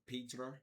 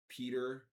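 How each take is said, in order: First: The name is said as Petra. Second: The name is said as Peter. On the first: "or uh, uh, uh Petra" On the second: "a lot of people say like Peter"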